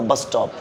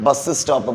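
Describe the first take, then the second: First: "bus stop" as one word, single s; connected words. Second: "bus stop" with an extra vowel, bus-is-stop; unconnected words. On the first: Teacher corrects the class, bus stop connected. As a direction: slide bus straight into top. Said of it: "connect ചെയ്ത് പറയാ". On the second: Teacher shows the class the mistake, bus stop unconnected. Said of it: "We don't say". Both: Shown as a demonstration.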